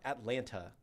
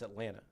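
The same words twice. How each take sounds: First: Every letter is fully pronounced. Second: The second t sound is dropped. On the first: "it's not Atlanta" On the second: "not necessarily fully pronouncing every letter"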